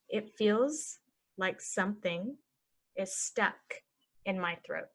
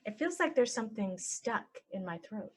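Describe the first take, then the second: First: Slow, broken into chunks; slow chunked. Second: Said in the usual way. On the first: Shown as a demonstration. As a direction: model it slowly for learners. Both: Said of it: "normal then slow".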